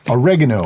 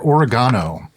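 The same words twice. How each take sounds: First: It is said with an American accent. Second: It is said with a British accent.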